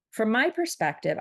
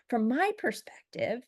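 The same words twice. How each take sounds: First: Said in the usual way. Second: "From my perspective" thrown back pointedly, pitched high; mock-indignant echo of "From my perspective", stressing "my"; all-caps emphasis. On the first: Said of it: "he replies to me and says". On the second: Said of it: "all capital letters, by the way".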